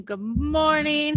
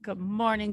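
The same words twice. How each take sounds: First: High, slow stretched good morning; drawn-out greeting. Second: Said in the usual way. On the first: Real, not acted.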